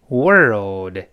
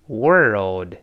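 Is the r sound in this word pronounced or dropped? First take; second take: pronounced; pronounced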